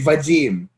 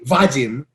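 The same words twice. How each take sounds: First: The stress is on the second syllable. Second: The stress is on the first syllable. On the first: The speaker calls it right. "we say Vadim" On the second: The speaker calls it wrong. "We don't say Vadim"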